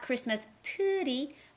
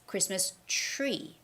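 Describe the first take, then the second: First: The T and R are said as separate sounds. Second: The T and R blend into a CH-like sound. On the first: The speaker calls it wrong. "it's not Christmas tree" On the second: The speaker calls it right. "because there's the T and the R stick together"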